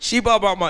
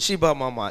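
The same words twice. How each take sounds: First: It is said fast and loudly. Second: It is said at normal speed and volume.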